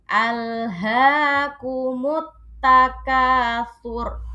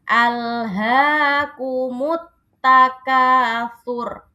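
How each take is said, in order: Both takes have the same delivery.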